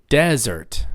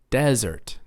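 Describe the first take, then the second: First: The stress is on the first syllable. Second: The stress is on the first syllable.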